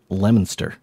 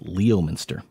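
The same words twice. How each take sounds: First: The name begins with 'lem', skipping the 'o'. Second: The name begins with 'lee-oh', following the spelling. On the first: The speaker calls it right. "It's pronounced Leominster" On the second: The speaker calls it wrong. "it's spelled out as Leominster"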